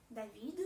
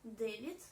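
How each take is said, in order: First: David said davi, with a plain d and no final t; French davi; French-style David. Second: David as DYE-vit, final t; Russian-style David. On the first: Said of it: "plutôt d'anglais". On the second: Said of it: "dans les mots en français plutôt d'anglais". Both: Shown as a demonstration.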